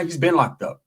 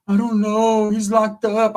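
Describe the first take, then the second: First: Said in the usual way. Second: Higher mock-tearful voice; imitated crying. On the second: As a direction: imitate a woman wailing on the phone. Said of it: "she starts crying".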